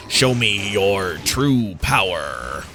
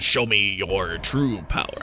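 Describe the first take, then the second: First: Low, slow, hammed-up villain voice; cheesy villain line. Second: Low, slow, hammed-up boss voice; a cheesy game boss, dropped low; cheesy villain line. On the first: Gamer quoting the general's cheesy boss line, low and slow. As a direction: growl it like a cheesy game boss. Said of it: "this really cheesy voice line". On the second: Gamer repeating the poorly voiced line, low mock boss voice. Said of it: "that particularly poorly voiced line".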